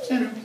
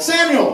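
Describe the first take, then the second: First: It is said calmly and plainly. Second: It is called out loudly and forcefully.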